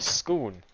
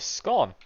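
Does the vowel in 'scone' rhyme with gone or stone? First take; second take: stone; gone. First: The vowel rhymes with stone. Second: The vowel rhymes with gone. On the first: "Or as some would call it, a scone. But I don't think that's the pronunciation I want to use" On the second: "Apparently it's called a scone"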